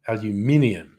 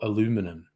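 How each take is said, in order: First: It is said with five syllables, an 'ee' sound. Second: It is said with four syllables, no 'ee' sound. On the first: The speaker calls it right. "there's an I in there" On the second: The speaker calls it wrong. "there's an I in there that you're just ignoring"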